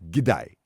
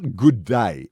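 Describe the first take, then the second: First: The first word is reduced to a 'g' sound. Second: The first word is said fully as 'good'. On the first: The speaker calls it right. "it's g'day, as in giddy up" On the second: The speaker calls it wrong. "it's not good day"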